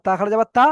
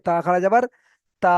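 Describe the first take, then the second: First: তা খাড়া যাবার তা with a short last তা; the wrong way: final তা left unstretched; no stretch while spelling. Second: তা খাড়া যাবার তা with the last তা held long; the right way: final তা fully elongated; stretch while spelling. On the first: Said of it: "বানানোর সময় টান দেবো না". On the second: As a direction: spell it out, then sustain the closing তা. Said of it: "বানানোর সময়ও টান দিতে হবে". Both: Shown as a demonstration.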